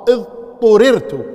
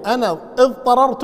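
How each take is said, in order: First: "اضطررت" as idhturirtu, slow and loud, u and i vowels; slowly and loudly stress "اضطررت" as idhturirtu; the right passive "اضطررت", drawn out with force; correct form. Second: "اضطررت" said as idhtarart, the active form, marked as the mistake; the wrong "اضطررت", idhtarartu. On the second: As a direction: say "اضطررت" with a-vowels, the mistaken reading. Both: Shown as a demonstration. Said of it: "غلط".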